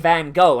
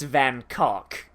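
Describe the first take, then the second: First: The name is said with an American pronunciation. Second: The name is said with a Dutch pronunciation. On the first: "Americans say Van Gogh" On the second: "in his actual home country it's Van Cock"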